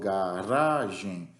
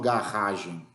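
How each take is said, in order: First: The R is pronounced soft and weak. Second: The R is pronounced strong and forceful. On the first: The speaker calls it right. "Esse R mais fraquinho, a gente chama de R átono" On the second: The speaker calls it wrong. "Eu não falo garagem"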